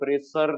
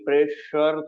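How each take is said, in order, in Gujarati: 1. વચ્ચેનો વ્યંજન સાદો s અવાજ છે. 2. વચ્ચેનો વ્યંજન sh અવાજ છે. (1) "પ્રેશર નથી થતું" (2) "પ્રેશર થાય છે"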